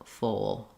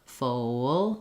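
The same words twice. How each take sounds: First: The word is said quickly, with a short glide. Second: The word is said slowly, with the glide drawn out. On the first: "as you speed up" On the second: "going slow and adding that can be helpful"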